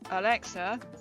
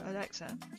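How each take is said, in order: First: It is said more loudly. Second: It is said more softly.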